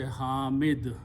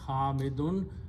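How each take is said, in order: First: The word ends without the '-un' ending. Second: The word ends with a full '-un' ending. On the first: The word is said at a stop. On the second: The word is said in running speech.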